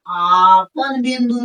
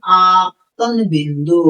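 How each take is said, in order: First: Slowly says "आपन बिंदु" without the त sound; drops the syllable: "आपन बिंदु", said slowly; wrong form. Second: Slowly says "आपतन बिंदु" with the त sound clearly in it; correct form. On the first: Teacher to students, showing the wrong word "आपन बिंदु". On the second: Teacher to students, correcting to "आपतन बिंदु". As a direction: stresses "आपतन", with a rise, slowly. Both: Shown as a demonstration. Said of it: "नहीं".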